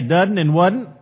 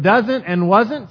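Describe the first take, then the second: First: The middle S sound becomes a D. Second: The words keep their middle S sound.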